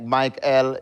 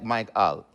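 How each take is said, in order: First: The name is said in a lighter, plainer way. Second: The name is said lower, with more bass. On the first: "is fine" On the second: "it make it bring it down, make it more bass"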